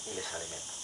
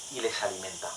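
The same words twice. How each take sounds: First: "alimenta" dropped to a near-whisper; soft repeat. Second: Said in the usual way. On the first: Shown as a demonstration. Preacher repeats the line softly to the congregation. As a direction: echo it very softly, letting it sink in.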